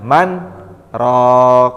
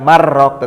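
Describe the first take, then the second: First: A short pause separates the two words. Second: The two words run together without a break. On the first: The speaker calls it right. "berhenti sejenak" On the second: The speaker calls it wrong. "tidak marrok"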